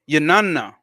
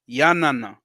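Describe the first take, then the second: First: The middle syllable has an 'ah' vowel. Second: The middle syllable has an 'ah' vowel.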